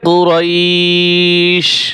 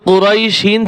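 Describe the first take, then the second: First: The word ends sharply on the 'sh' sound. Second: The word ends with an added 'in' sound. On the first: The reader stops at the end of the verse. "ওয়াকফ করলে কি হবে?" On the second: The reading continues without stopping. "এখানে কিন্তু কুরাইশিন ছিল"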